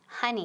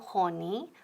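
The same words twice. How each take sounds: First: The first vowel sounds like a short 'uh'. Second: The first vowel sounds like a rounded 'oh'. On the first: The speaker calls it right. "So O es como A" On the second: The speaker calls it wrong.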